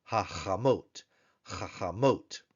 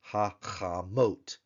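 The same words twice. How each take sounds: First: Said in the usual way. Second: "hachamot" slowly as ha, cha, mote; syllable-by-syllable demo. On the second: Shown as a demonstration. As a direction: gaps inside "hachamot", guttural ch. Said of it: "our plural form for the feminine".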